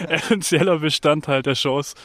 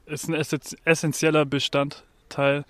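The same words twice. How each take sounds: First: Said in the usual way. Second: Frozen tongue. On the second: Real, not acted. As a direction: fumble "essentieller Bestandteil" with a frozen tongue. (mit eingefrorener Zunge) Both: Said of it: "Gerade ist meine Zunge schon eingefroren".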